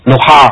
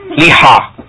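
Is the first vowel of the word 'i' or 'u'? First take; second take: u; i. First: The first vowel is a rounded 'u'. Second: The first vowel is a front 'i'. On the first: "Bisa dengan dom" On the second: "Bisa dengan kasro"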